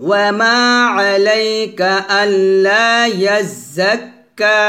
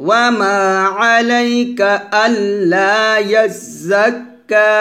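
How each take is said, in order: No difference in how they are said.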